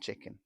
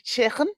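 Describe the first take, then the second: First: It is said in a standard accent. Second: It is said in a Liverpool accent. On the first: "instead of" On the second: "if you go to Liverpool, people speak like that and they say chicken"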